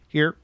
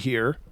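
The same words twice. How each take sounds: First: The word is cut short abruptly. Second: The word is drawn out smoothly. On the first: "really quick and and and and and abrupt" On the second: "My here is more like Don will be here"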